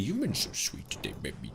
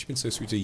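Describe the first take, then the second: First: Put-on softened, lisping baby-talk coo; cutesy baby talk. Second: Said in the usual way. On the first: Streamer to a generous viewer, cutesy baby talk.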